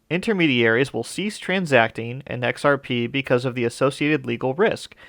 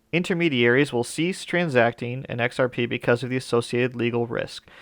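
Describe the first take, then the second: The two takes are said the same way.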